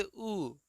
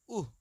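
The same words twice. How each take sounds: First: Level, simple उ; straight vowel. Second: उह with a falling pitch and h ending; pushed-out vowel. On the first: Teacher reads it straight for pupils, even उ. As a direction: say उ straight, with no puff after it. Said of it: "ये पढ़ेंगे सीधे". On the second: Teacher contrasts it for pupils, falling breath-ended उह. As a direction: push out उह, dropping in pitch. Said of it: "इसको पढ़ेंगे". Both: Shown as a demonstration.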